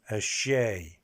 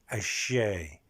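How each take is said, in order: Both takes have the same delivery.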